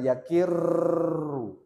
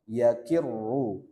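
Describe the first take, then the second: First: The r is trilled for many vibrations. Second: The r is trilled only two or three vibrations. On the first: The speaker calls it wrong. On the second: The speaker calls it right.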